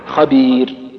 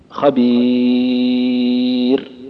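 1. تُمَدّ الحركة الطويلة مدةً قصيرة. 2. تُمَدّ الحركة الطويلة مدةً متوسطة. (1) "قصرت" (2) "وسطت"

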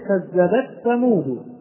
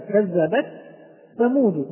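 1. يُدغم صوت التاء في th الذي بعده. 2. يُنطق صوت التاء بوضوح قبل th. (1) "قد يتوقع البعض كما نسمعها من بعض القراء ... وهذا خطأ ويعتبر لحنا" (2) "والصواب أن ننطقها هكذا"

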